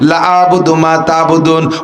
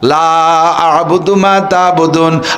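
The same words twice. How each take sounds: First: The vowel of 'la' is cut short. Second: The vowel of 'la' is drawn out long. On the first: Until now only you worshipped and we did not. The speaker calls it wrong. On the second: We never worship what you worship and never will. The speaker calls it right.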